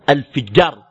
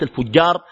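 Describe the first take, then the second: First: The vowel after the f is i. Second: The vowel after the f is a. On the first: The speaker calls it right. "بكسر الفاء" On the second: The speaker calls it wrong. "وليس الفجار"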